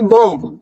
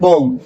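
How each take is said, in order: First: The word ends with an audible b sound. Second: The word ends on the m, no b sound. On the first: The speaker calls it wrong. "ना कि बॉम्ब। बॉम्ब नहीं बोलना, last में बी नहीं बोलना" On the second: The speaker calls it right. "आपको सिर्फ बॉम बोलना है"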